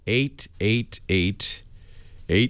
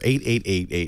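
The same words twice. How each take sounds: First: It is said slowly. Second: It is said fast.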